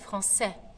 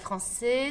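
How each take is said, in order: First: The final vowel is said open, like è. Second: The final vowel is said closed, like é. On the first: The speaker calls it right. "c'est français" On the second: The speaker calls it wrong. "c'est pas français"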